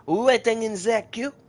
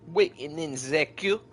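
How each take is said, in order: First: Higher and louder sing-song repeat. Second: Said in the usual way. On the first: Pretend. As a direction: sing it out playfully, up high. Repeated queue phrase, louder higher.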